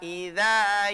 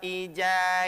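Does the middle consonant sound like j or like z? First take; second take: z; j. First: The middle consonant sounds like z. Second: The middle consonant sounds like j. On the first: The speaker calls it right. "Za idza yaghsha" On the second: The speaker calls it wrong. "Tadi bacaannya begitu. Nah, ini keliru"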